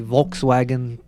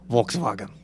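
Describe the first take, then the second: First: The second w is sounded as an English w. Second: The second w is sounded as a v.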